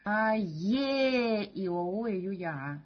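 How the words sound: The second vowel is loud, the rest quiet. "вторую букву сделать заглавной"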